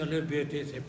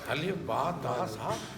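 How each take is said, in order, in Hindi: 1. अक्षरों के नाम 'एह' स्वर पर खत्म होते हैं। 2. अक्षरों के नाम 'आह' स्वर पर खत्म होते हैं। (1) "हम तो जट लोग हैं ना, इसलिए अलिफ बे ते से पढ़ जाते हैं" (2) "कारी साहबान सही कहते हैं, हरूफ ऐसे ही हैं"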